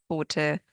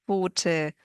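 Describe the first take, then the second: No difference in how they are said.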